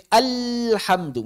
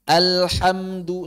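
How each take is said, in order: First: "alhamdu" with the vowel drawn out as an error; wrong, stretched. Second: "Alhamdu" slowly, each vowel one beat only; correct length. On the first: Teacher showing students the lengthened wrong alhamdu. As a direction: show the stretched mistake in "alhamdu". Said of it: "jangan dipanjangkan". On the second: Teacher modelling correct short vowels for students. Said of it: "satu harokat saja". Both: Shown as a demonstration.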